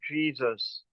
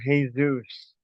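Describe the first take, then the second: First: Jesus is pronounced the English way. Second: Jesus is pronounced the Spanish way.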